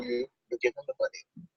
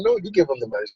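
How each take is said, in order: First: Whisper. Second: Said in the usual way. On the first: Retold or imitated. Dad instructing daughter at counter.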